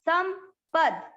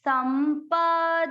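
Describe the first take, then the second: First: The word ends with a bare consonant sound. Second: The word ends with a final vowel sound. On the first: "आज के श्लोक में द आधा है" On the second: "क्योंकि प और द पूरे थे"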